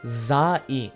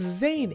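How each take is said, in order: First: The name is split into separate syllables. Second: The name is said as one smooth syllable. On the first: The speaker calls it wrong. "why are you pronouncing every syllable literally?" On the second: The speaker calls it right. "it's Zane. It's not that hard"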